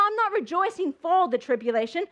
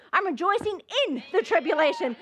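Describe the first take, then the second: First: "for" picked out with emphasis; emphatic "for", the word being rejected; stress on FOR. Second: "in" picked out as the correction; emphatic "in", set against the rejected word; stress on IN. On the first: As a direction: lean on "for" to set up a contrast. Contrasts "for" with "in. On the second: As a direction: punch the word "in". Contrasts "in" with "for. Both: Shown as a demonstration.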